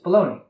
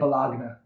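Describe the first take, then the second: First: The word ends with a 'nee' sound. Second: The word ends with a 'nya' sound. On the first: The speaker calls it right. "It's baloney" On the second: The speaker calls it wrong. "Just don't say balagna"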